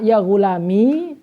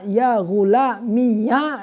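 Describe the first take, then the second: First: The word ends in a long i vowel. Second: The word ends in an added ya syllable. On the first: "dengan adanya ya" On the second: "dengan dibaca ya yang difathahkan"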